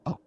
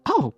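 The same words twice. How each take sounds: First: Said in the usual way. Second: Pleasantly surprised "Oh"; happier voice. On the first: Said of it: "in a different, happier kind". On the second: Acted. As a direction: let the "Oh" lift with delight. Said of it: "different, happier kind of voice".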